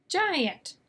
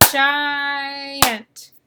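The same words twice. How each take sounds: First: Said in the usual way. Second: "Giant" with the long I held out, then a separate "ant"; "Giant" sounded slowly in two syllables; stretched first syllable. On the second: Shown as a demonstration. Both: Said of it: "at the end of the first syllable".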